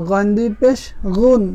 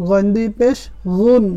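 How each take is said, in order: No difference in how they are said.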